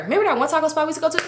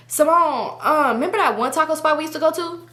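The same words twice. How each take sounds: First: Quick, high re-enactment of friend; imitating friend. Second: Higher-pitched friend's voice; imitating friend. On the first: Friend nudging her to play along, rushed imitation. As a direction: rush the hint out, higher. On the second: Friend hinting about a taco spot, imitated higher. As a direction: casually prompt her in a raised voice. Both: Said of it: "this is her".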